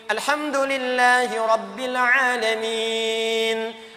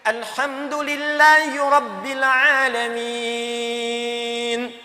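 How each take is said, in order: First: The final vowel is held about two seconds. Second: The final vowel is held about three seconds. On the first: "Dua detik" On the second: "Tiga detik"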